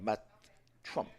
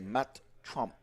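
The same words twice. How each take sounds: First: The surname's vowel sounds like the 'u' in 'cup'. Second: The surname's vowel sounds like the 'o' in 'top'. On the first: The speaker calls it wrong. "instead of" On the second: The speaker calls it right. "we're gonna say"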